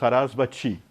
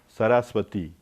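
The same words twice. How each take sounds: First: The last syllable sounds like 'chee'. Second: The last syllable sounds like 'tee'. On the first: This is the everyday Portuguese way of saying it. "em português nós falamos Sarasvati" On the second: This is the way closer to the Sanskrit original. "Então é ti, Sarasvati"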